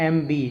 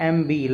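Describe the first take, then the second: No difference in how they are said.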